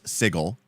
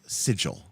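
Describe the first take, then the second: First: It uses the game's official pronunciation. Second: It uses the ordinary English pronunciation. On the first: This is the name of the city in the game. "the official D and D pronunciation is" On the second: This is the common English word. "even though the English word is"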